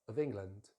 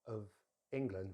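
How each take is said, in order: First: The two words run together without a gap. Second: There is a gap between the two words. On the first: The speaker calls it right. "join it straight to the next word" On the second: The speaker calls it wrong. "not of England with a gap"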